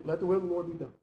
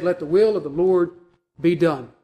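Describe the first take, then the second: First: Softer, frustrated giving up; pessimistic resignation. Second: Said in the usual way. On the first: Acted. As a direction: say it as a grudging surrender, no trust in it. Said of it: "I think that's exactly how they said that". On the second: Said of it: "we ceased and said".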